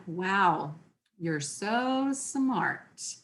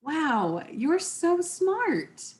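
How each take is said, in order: First: Slow, soft, deadpan mock praise; eye-roll sarcasm, unhurried; sarcastic. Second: Drawn-out, rising awe, slowly; a genuine, slow wow of admiration; sincere impressed. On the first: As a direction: drag it out dry and unimpressed. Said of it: "Or it could be read". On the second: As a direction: gush it like you mean it. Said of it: "It could be read". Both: Shown as a demonstration.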